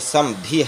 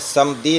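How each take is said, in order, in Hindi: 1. बीच का व्यंजन स्पष्ट महाप्राण के साथ बोला जाता है। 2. बीच का व्यंजन बिना महाप्राण के बोला जाता है। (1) "समधी है लफ्ज, धा निकाल कर" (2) "समधी नहीं"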